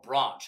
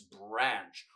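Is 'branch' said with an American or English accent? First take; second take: English; American. First: The word is said with an English accent. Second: The word is said with an American accent.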